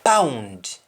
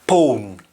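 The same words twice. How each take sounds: First: "Pound" said pah-oond, with "ow"; English-style "Pound", open "ow" and final d; English pronunciation. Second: "pound" said pohn, with O and no d; Jamaican pronunciation. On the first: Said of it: "pronounced in English". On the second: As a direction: say "pound" the Patois way, as pone. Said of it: "in Jamaican". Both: Shown as a demonstration.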